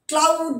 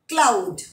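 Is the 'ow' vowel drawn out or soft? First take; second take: drawn out; soft. First: The vowel is long and drawn out. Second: The vowel is short and soft. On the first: The speaker calls it wrong. "क्लाउड नहीं बोलना है" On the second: The speaker calls it right. "आउ जो sound है it is very थोड़ा soft सा sound है"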